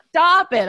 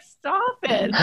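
First: Mild mock yell. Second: Said in the usual way. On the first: Wife retelling yelling at the kids, louder. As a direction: Stop it, said louder and sharper. Parents fighting at bedtime.

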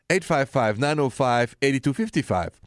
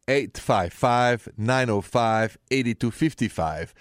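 First: Said in the usual way. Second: Slow each digit so they can write it down; slow, clear digits for callers; slow, deliberate number. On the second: Shown as a demonstration. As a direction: spell the number out slowly. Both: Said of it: "What is the number to dial right now".

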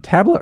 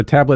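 First: Tabla with an "ah" as in "father"; broad-A pronunciation. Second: Tabla with an "a" as in "tab"; flat-A pronunciation. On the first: Host checking how to say it, tabla as TAH-bluh. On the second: Host checking how to say it, tabla as TAB-luh. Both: Shown as a demonstration.

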